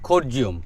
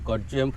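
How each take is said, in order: First: It begins with an aspirated kh sound. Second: It begins with a plain k sound. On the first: It follows how local people say the name. "এদের উচ্চারণে হচ্ছে খরজিয়ম" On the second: It follows how the name is spelled online. "গুগলে বানানটা আলাদা দেখায়, সেই জন্য সেই রকমই উচ্চারণ করছিলাম"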